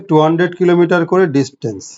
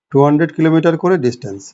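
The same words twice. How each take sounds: The two takes are said the same way.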